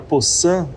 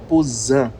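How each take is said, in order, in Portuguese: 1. A consoante do meio é um S sibilante. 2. A consoante do meio é um Z com zumbido.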